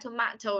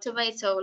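First: It is said with a British accent. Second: It is said with an American accent. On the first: "Tomato là người Anh sẽ đọc" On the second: "còn tomato là người Mỹ đọc như vậy"

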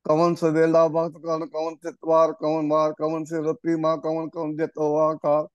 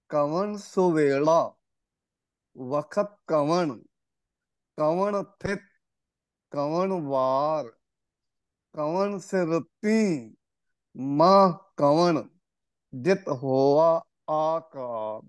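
First: The words are slurred and run together. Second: Each word is pronounced clearly and separately. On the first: The speaker calls it wrong. "ਜਿਵੇਂ ਆਮ ਸੰਗਤ ਪੜ੍ਹਦੀ ਹੈ" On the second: The speaker calls it right. "ਇਹ ਹੈ ਸਹੀ ਉਚਾਰਨ"

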